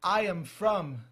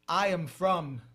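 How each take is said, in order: Both takes have the same delivery.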